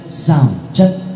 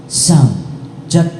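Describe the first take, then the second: No difference in how they are said.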